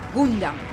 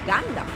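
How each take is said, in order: First: The first vowel is a rounded 'oo' sound. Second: The first vowel is not an 'oo' sound. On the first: It follows the Spanish reading of the spelling. "in Spanish it's with U" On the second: It follows the original pronunciation. "the true pronunciation is Gundam"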